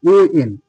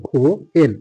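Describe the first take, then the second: First: "ও এন" with the h dropped, opening on o; British-style pronunciation. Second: "হো এন" with a clear h at the start; American-style pronunciation. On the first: Teacher showing the British rule, "ও এন" without h. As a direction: start "ও এন" on a pure o, no h. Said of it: "ব্রিটিশদের রুলসে যাব". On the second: Teacher showing the American way, "হো এন" with h. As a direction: sound out "হো", then "এন". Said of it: "এই উচ্চারণটা কিন্তু আমেরিকানদের উচ্চারণ". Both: Shown as a demonstration.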